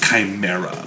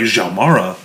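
First: The name is said with ordinary English sounds. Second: The name is said with Chinese-style sounds. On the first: The speaker calls it right. "no, it's pronounced Chimera" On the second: The speaker calls it wrong. "if you pronounce it like it's like Chinese"

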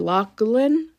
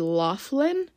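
First: The middle is said with a G-like sound. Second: The middle is said without a G-like sound. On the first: The speaker calls it right. "like kind of like a K or a G. It is a G, so it's probably Loughlin" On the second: The speaker calls it wrong. "my whole life I thought it was Lori Loughlin, but it's definitely not"

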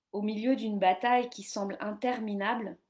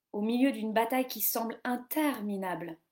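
No difference in how they are said.

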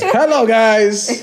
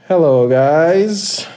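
First: The greeting sounds lively and excited. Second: The greeting sounds flat and unexcited.

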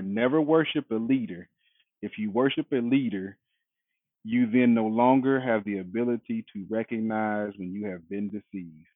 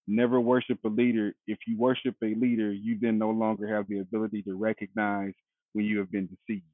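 First: It is read more slowly. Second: It is read at a normal pace.

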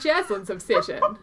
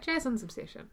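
First: The voice is lively and high in energy. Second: The voice is flat and low in energy. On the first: The speaker calls it right. "Do you want me to sound more upbeat?" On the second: The speaker calls it wrong. "Do I sound monotonous?"

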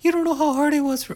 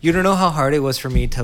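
First: It is said in a put-on character voice. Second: It is said in the speaker's natural voice.

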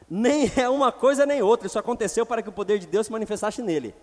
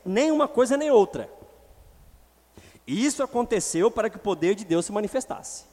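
First: The two parts run together without a break. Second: A full stop pause separates the two parts.

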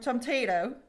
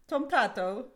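First: It is said in an American accent. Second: It is said in a British accent.

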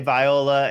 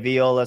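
First: The name is said the American way. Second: The name is said the Italian way. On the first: This is how Americans say the name. "Americans say Viola" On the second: This is how people in Italy say the name. "if you're in Italy, they all say Viola"

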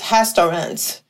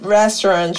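First: The R sounds like an H. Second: The R is an English R.

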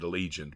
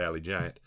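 First: The name is said as one word, Allegiant. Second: The name is said as two words, Alley Giant. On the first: This is how other people say it. "some of y'all pronounce it Allegiant" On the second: This is how the speaker's own group says it. "but we call it Alley Giant"

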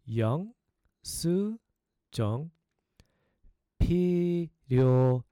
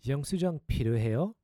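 First: It is said slowly, broken into parts. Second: It is said at a faster pace.

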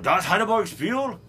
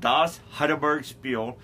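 First: It is said in a put-on German accent. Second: It is said in a plain American accent.

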